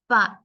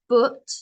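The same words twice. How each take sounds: First: The vowel sounds like the one in 'up'. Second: The vowel does not sound like 'up'. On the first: The speaker calls it right. "the U is like an A, but up" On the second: The speaker calls it wrong. "Not but"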